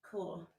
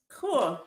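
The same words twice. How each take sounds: First: Soft, quiet Cool. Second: Said in the usual way. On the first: Real, not acted. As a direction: breathe Cool gently and quietly. Ending a stretch.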